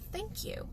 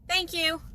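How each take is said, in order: First: It is said warmly, with real feeling. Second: It is said offhand, without real feeling.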